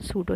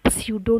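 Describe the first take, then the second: First: The word begins with a plain s sound. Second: The word begins with a sy sound. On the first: The speaker calls it right. "सूडो ही बोला है" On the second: The speaker calls it wrong. "स्यूडो नहीं बोला हमने"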